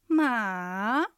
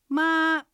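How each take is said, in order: First: The pitch dips low, then rises. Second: The pitch stays high and level. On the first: It means horse. "がっかりするような下がって上がる音です。" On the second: It means mother. "平板です。高く音を伸ばします。"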